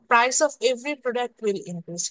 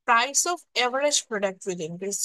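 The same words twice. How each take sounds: First: Said in the usual way. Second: Average weighted, very slow delivery; slow down and lean on average; stress on average. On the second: Shown as a demonstration. (average শব্দে জোর দিয়ে ধীরে) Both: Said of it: "একটা word আমি সবসময় জোর দিয়ে বলি".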